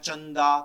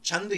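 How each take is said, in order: First: The word ends with an added final vowel. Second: The word ends on the final consonant. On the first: The speaker calls it wrong. "इसको चंदा नहीं बोलना है" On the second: The speaker calls it right. "छंद ही बोलना है"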